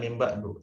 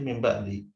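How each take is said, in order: First: The phrase ends in a u vowel. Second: The phrase ends in an i vowel. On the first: The speaker calls it wrong. "tidak mimba du" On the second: The speaker calls it right. "tapi mimba di. Jar karena dia mudhaf"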